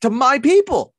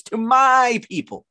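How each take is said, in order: First: To my people belted out high and loud; loud mock-grand proclamation of my people; booming emphasis. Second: Breathy high whisper, my people savoured; hushed mock-grand to my people; smug whisper. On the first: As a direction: proclaim to my people like a rally speech. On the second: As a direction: whisper to my people like a beloved leader. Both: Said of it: "when you emphasize it like that".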